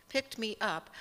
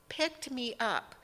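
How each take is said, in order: Both takes have the same delivery.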